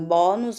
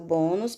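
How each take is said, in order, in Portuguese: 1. A primeira vogal é aberta. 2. A primeira vogal é fechada. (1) "eu não digo bônus" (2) "Como o som é fechado, eu digo bônus"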